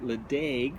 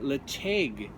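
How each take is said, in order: First: The middle consonant is a plain d sound. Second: The middle consonant is a throaty ch sound. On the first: The speaker calls it wrong. "I had formerly called it Ledaig, which is how it looks as though it's uh, spelled" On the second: The speaker calls it right. "the correct pronunciation"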